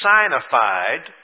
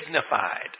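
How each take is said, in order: First: The first syllable sounds like the word 'sign'. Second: The first syllable sounds like 'sig'.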